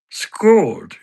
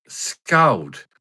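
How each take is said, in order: First: High, loud impression, "Scold" with a long pure vowel; Patter. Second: Said in the usual way. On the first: Character echoes his baffled mate, high impression saying "skawld". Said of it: "I can do an impression of Patter".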